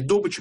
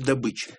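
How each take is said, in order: First: It is pronounced the way oil workers say it. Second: It is pronounced the way ordinary people say it. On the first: This is the professional jargon form. "как говорят нефтяники" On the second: This is the common everyday form. "как говорят нормальные люди"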